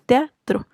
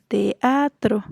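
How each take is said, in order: First: "teatro" in two syllables, tea-tro; "teatro" with the ea glided as one syllable; vowels run together. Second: "teatro" slowly in three syllables, te-a-tro; "teatro" drawn out as te, a, tro; split hiatus. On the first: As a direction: say "teatro" with e and a squeezed into one beat. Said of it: "no decimos teatro". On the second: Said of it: "decimos teatro". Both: Shown as a demonstration.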